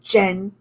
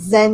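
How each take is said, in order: First: The name begins with a j sound. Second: The name begins with a z sound. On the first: The speaker calls it right. "it's pronounced like J" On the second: The speaker calls it wrong. "it's not pronounced Z"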